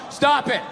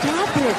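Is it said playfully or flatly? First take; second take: flatly; playfully. First: It is read out flatly, without playfulness. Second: It is said in a flirty, playful way.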